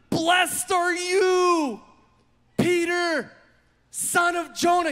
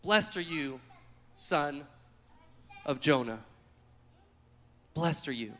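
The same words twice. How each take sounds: First: High, loud, slow excited blessing. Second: Lower, softer, tender blessing. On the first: Jesus praising Peter, loud and excited. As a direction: shout it with joy. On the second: Jesus blessing Peter again, soft and tender. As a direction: say it gently, almost to yourself. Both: Acted.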